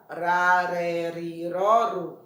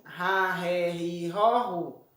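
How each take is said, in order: First: "Ra, ré, ri, ró, ru" with a tapped tongue-tip R; weak R sound. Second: "Ra, ré, ri, ró, ru" with a breathy h-like R; strong R sound. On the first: Teacher reviews single R between vowels, "Ra, ré, ri, ró, ru" with weak tapped R. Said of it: "som fraco". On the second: Teacher reviews R at the start of a word, "Ra, ré, ri, ró, ru" with strong h-like R. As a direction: chant "Ra, ré, ri, ró, ru" with strong initial R. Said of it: "som forte". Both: Shown as a demonstration.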